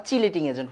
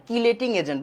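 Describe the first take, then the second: First: চিলেটিং starting with a ch sound; চিলেটিং agent, ch sound first; ch pronunciation. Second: কিলেটিং with a hard k at the start; কিলেটিং agent, hard k sound first; hard k spelling pronunciation. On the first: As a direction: say চিলেটিং as chee-leting. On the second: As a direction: say কিলেটিং as kee-leting. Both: Shown as a demonstration. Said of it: "উচ্চারণটা আসলে চিলেটিং agent হওয়া উচিত".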